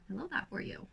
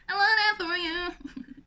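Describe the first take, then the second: First: Soft, offhand approval; quiet little word of approval; soft aside. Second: High, loud put-on gush; hammed-up, raised-pitch cheer; playful loud repeat. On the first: Real, not acted. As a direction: say it under your breath, a touch softly. First take of repeated catchphrase. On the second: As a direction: belt it out in a silly high voice.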